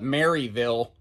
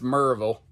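First: The name is said the Northern way. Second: The name is said the local Southern way. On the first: This is how outsiders say the name. The speaker calls it wrong. "y'all Yankees, you're going to call it" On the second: This is how locals say the name. The speaker calls it right. "but it's"

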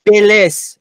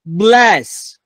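First: An extra vowel separates the B and the L. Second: The B and the L join with no vowel. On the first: The speaker calls it wrong. "اینجا یه دونه ا اضافه میکنه" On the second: The speaker calls it right. "بین B و L صدایی وجود نداره"

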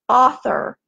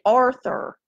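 First: The first syllable has no r sound. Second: The first syllable has an r sound. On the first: The speaker calls it right. "How do you say it?" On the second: The speaker calls it wrong. "I always say it wrong. I want to say Arthur"

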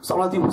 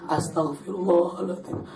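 First: It is said fast. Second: It is said slowly.

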